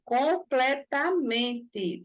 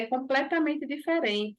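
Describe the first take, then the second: First: "Completamente" split into slow, separate syllables. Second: Said in the usual way. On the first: Acted. Offended boyfriend insists to the girl, syllable by syllable. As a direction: spell out "Completamente" as com-ple-ta-men-te, each beat spaced.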